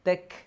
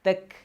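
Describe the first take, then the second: The two takes are said the same way.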